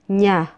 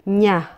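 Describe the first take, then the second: No difference in how they are said.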